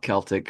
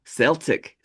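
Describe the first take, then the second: First: The word begins with a hard K sound. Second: The word begins with a soft S sound. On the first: "Hard K" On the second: "Why do you pronounce it that way?"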